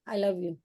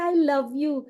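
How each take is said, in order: First: It is said flatly, without warmth. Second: It is said warmly, with affection. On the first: The words carry no real feeling. The speaker calls it wrong. "उसको feeling आएगी क्या?" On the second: The words express real love. The speaker calls it right. "आई तो कितना cute है"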